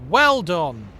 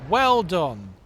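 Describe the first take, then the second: The two takes are said the same way.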